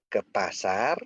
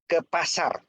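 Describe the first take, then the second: First: It is said as a question. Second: It is said as a plain statement. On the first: The speaker asks whether the other is going to the market. "B bertanya" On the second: The speaker is going to the market. "A berkata"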